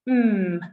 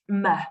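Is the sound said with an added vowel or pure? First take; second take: pure; added vowel. First: The consonant is held alone with no vowel. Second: The consonant is followed by a short vowel. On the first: The speaker calls it right. "using the pure sounds, such as mm" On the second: The speaker calls it wrong. "and not m"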